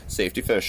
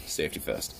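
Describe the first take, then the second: First: Said in the usual way. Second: Breathy hushed repeat; a whispered safety first, half-joking. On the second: Shown as a demonstration. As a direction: hush it like a secret.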